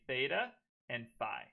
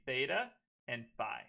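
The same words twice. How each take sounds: First: It is said with an American pronunciation. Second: It is said with an American pronunciation.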